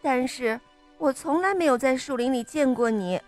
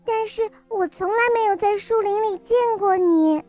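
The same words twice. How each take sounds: First: It is said in a suspicious tone. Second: It is said in a frightened tone.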